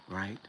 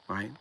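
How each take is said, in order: No difference in how they are said.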